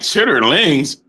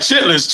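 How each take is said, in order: First: The word is said in its full, longer form. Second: The word is said in its short, clipped form. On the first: It is the proper way of saying it. "And I'm like, chitterlings" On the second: It is the everyday local way of saying it. "I used to be like, chitlins"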